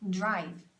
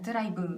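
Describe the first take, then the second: First: The word ends softly on a short consonant. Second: The word ends with a full extra vowel sound. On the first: The speaker calls it right. "끝은 항상 줄여야 돼요" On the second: The speaker calls it wrong. "한국식으로 발음하면 ... 이게 아니에요"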